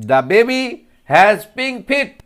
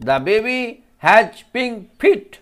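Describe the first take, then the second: First: Put-on The baby has pink feet, louder and slow on feet; teacher modelling the line; slow modelled sentence. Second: Second take of the line; slow repeat. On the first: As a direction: draw out feet for the class. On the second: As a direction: repeat it slowly for children. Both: Shown as a demonstration. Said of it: "ফিটের উচ্চারণটা দেখো".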